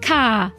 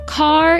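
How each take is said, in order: First: The final R sound is dropped. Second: The final R sound is pronounced. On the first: "words that don't use the R's. ... you'd say car" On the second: "instead of saying car"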